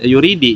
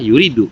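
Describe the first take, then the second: First: The word ends with an i vowel. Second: The word ends with a u vowel. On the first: The ending changes because two vowelless letters meet. "Kenapa sih kok dibaca kasroh gitu?" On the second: This is the basic, original form of the verb. "As asalnya mah yuridu"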